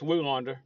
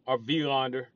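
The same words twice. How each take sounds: First: The name begins with a W sound. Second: The name begins with a V sound. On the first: The speaker calls it wrong. "It's a W" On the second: The speaker calls it right. "but I think it's pronounced V"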